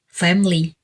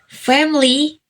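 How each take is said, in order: First: The middle vowel is dropped, two syllables. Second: The middle vowel is pronounced, three syllables. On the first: "the word sound E in the middle of the word is removed" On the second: "family becomes family"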